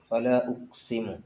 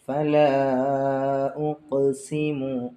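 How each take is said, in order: First: The q sound is held without a bouncing release. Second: The q sound is released with a bouncing echo. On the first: The speaker calls it wrong. "ഉഖ്സി എന്ന് അല്ല ഇവിടെ ഉച്ചരിക്കേണ്ടത്" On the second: The speaker calls it right. "ഖാഫിനെ കൽക്കലത്ത് എന്ന് പറയുന്ന സിഫത്ത് നൽകി ഉച്ചരിച്ചിട്ട്"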